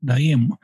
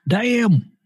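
First: Said in the usual way. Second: Damn pitched higher, falling at the end; higher repeat. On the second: Real, not acted. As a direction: jump up higher on the second Damn. Second take on his age.

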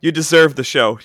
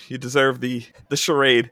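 First: "deserve" pushed louder and stressed; "You deserve the show" punched on "deserve"; emphatic. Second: Said in the usual way. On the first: Real, not acted. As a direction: lean hard on "deserve" with a louder push.

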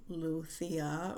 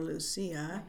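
First: "Lucia" with a th sound, loo-THEE-ah; "Lucia" lisped the Castilian way, stressed on the i; Castilian Spanish pronunciation. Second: "Lucia" with an s sound, loo-SEE-ah; "Lucia" the Latin American way, stressed on the i; Latin American Spanish pronunciation. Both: Shown as a demonstration. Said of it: "And I speak Spanish".

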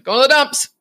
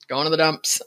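First: Bright sing-song announcement, higher and louder; a happy kid's reply; cheerful. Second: Said in the usual way. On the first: Retold or imitated. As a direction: chirp it like a proud answer. Family joke, sing-song answer.

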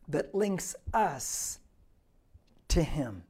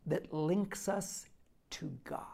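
First: Slow, deliberate. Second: Slow, softer and softer until "God" is a whisper; hushed, fading to whisper. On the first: Preacher repeats phrase slowly. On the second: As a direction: let it die into a whisper. Preacher drops voice for effect. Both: Acted.

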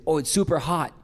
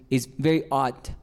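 First: Hot with a breathed H at the start; sounded English H. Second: Hot said without its H, "ot"; French dropped H. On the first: Shown as a demonstration. Contrasting with French speakers, hot with a clear H. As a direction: pronounce the H in hot. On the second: Retold or imitated. Imitating French speakers of English, hot as "ot". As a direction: drop the H from hot. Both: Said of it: "para los franceses es la H".

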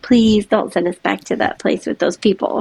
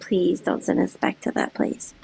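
First: Said in the usual way. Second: Hushed, pleading whisper. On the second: Retold or imitated. Girls begging their mom not to go back, whispered. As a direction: whisper it like a scared child begging. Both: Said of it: "my girls are like".

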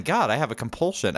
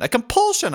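First: Said in the usual way. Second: High, dramatic exclaimed compulsion; high theatrical celebrity whine; Billy Eichner impression. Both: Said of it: "That was a Billy Eichner impression".

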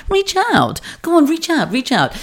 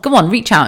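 First: High, falling "Reach out", savoured. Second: Casual. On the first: Enjoying her own phrase to listeners, sing-song high "Reach out". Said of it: "I really enjoyed that reach out". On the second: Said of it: "I said it so casually". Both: Shown as a demonstration.

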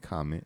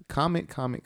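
First: Said in the usual way. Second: High, insistent repeated comment; eager plea. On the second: Real, not acted. Host urging listeners to comment, eager high repeated plea. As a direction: pitch it up and keep hammering comment.

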